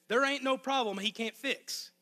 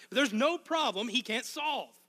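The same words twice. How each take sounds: First: A touch of Arkansas country accent. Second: Said in the usual way. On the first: Shown as a demonstration. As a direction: slip into a hint of home Arkansas talk. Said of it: "my accent was worse than usual". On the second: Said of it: "If I would have done that".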